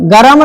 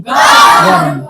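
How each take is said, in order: First: "गरम", two syllables with a vowel after r; wrong full r. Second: "गर्म" in one syllable, r straight into m; lower, drawn "गर्म" with no vowel after r; half r. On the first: Teacher shows class what not to say, "गरम" with full r. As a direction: give the r in "गरम" its whole vowel. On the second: Teacher corrects class, "गर्म" with half r. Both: Shown as a demonstration. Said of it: "गरम नहीं".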